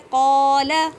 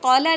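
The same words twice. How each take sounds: First: The first vowel is drawn out for two counts. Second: The first vowel is short, not drawn out. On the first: The speaker calls it right. "थोड़ा सा खींचेंगे यानी कि टू count इसकी मिकदार है" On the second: The speaker calls it wrong. "अब हम इसको कौला नहीं पढ़ेंगे"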